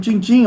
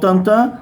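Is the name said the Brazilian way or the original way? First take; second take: Brazilian; original. First: The name is said with Brazilian vowels. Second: The name is said with original French-like vowels. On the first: This is how everyone in Brazil said it. "ninguém pronunciava assim no Brasil" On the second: This is the correct pronunciation. "Tantan é a pronúncia certa"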